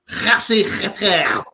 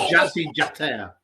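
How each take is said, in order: First: The name begins with a breathy H sound. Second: The name begins with a J sound. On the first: The speaker calls it right. "they don't say J. It's Kh" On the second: The speaker calls it wrong.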